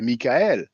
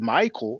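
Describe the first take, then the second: First: The name is pronounced the French way. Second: The name is pronounced the English way. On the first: "in French we say Michael" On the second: "in English you say Michael"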